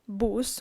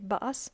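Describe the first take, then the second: First: The word is pronounced as spelled, Spanish-style. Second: The word is pronounced with English pronunciation rules. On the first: The speaker calls it wrong. "we do not say bus" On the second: The speaker calls it right. "we say bus"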